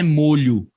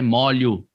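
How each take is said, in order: First: The stressed O is a closed vowel. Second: The stressed O is an open vowel. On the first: The speaker calls it wrong. "A pronúncia dessa palavra não é molho" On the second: The speaker calls it right. "tem que ser com esse O aberto"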